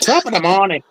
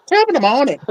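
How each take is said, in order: First: Mock Irish accent, lightly done; a stage Irish greeting, hammed up. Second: Put-on higher, hammier Irish accent. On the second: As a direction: push the Irish brogue up a notch. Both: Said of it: "my Irish accent's not very good".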